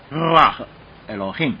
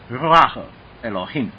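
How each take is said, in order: First: The first R is trilled in the throat. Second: The same.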